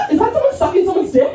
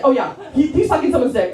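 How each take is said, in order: First: High, fast paranoid questioning, played for laughs; hammed-up jittery suspicion; mock paranoid alarm. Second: Lightly acted paranoid certainty; comic suspicion, calmer and nearer normal pitch; mild mock paranoia. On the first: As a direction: blurt it like a comically spooked stoner. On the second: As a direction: settle into a mock-paranoid conclusion. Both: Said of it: "I was so paranoid".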